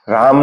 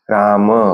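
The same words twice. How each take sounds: First: The word ends on the final consonant. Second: The word ends with a short final vowel. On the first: The speaker calls it wrong. "राम नाही" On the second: The speaker calls it right. "त्याला तुम्ही ओढलं पाहिजे थोडस"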